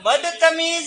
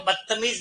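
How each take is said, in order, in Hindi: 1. यह शब्द अपने पूरे, ध्यान से बोले गए रूप में बोला गया है। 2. यह शब्द आसान, नरम रूप में बोला गया है। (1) "वो बदतमीज है" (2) "वास्तव में वो बदतमीज नहीं है"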